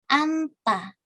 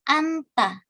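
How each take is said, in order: No difference in how they are said.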